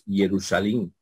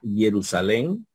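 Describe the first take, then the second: First: It uses historical Greek vowel sounds. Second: It uses Erasmian Greek vowel sounds. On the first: It follows the historical reading of Greek. "la histórica reptiliana, ¿verdad? Diríamos Jerusalén" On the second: It follows the Erasmian reading of Greek. "si vamos a ver la pronunciación erasmiana, sería Jerusalén"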